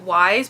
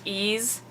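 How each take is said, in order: First: The name begins with a w sound. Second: The name begins with a vowel sound. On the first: The speaker calls it wrong. "I know I'm saying it Wise, but it's not pronounced that way" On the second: The speaker calls it right. "It's pronounced Ease"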